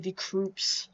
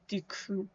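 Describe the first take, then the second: First: The word ends with an audible S sound. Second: The word ends without an S sound. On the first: The speaker calls it wrong. "I sometimes accidentally say decoups" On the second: The speaker calls it right. "I'm pretty sure the S is silent"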